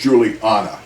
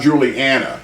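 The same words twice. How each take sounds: First: The name is said with an English-sounding touch. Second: The name is said plainly, without English flavor. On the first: The speaker calls it right. "You have to have that sort of an English touch" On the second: The speaker calls it wrong. "It's not Juliana"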